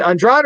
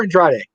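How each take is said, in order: First: Andrade said "on-DRAHD"; two-syllable pronunciation. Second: Andrade said "on-DRAH-day"; three-syllable pronunciation. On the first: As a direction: say Andrade with a silent final E. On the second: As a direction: sound the final E of Andrade as "day". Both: Shown as a demonstration. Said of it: "is it Andrade or Andrade?".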